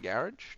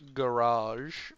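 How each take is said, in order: First: Garage is said in a British accent. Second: Garage is said in an American accent.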